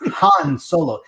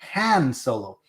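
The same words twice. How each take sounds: First: The vowel in the first name is drawn out. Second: The vowel in the first name is short. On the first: This is the English way to say it. The speaker calls it right. "that drawn out, that's like a very English word" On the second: This is how a Mexican kid would say it. The speaker calls it wrong. "I never said it like that. I said it Han Solo"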